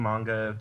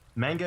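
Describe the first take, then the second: First: It is said with the standard pronunciation. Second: It is said with a Canadian pronunciation. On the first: The speaker calls it right. "if you want to pronounce it right" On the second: The speaker calls it wrong. "if you're Canadian"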